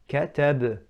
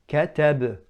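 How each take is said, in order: The two takes are said the same way.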